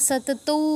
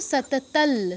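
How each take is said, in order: First: The word ends in an 'au' sound. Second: The word ends in an 'l' sound. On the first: The speaker calls it wrong. "সাতাতাই বা সাতাতৌ বলবো না" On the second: The speaker calls it right. "কি বলবো, সাতাতাল"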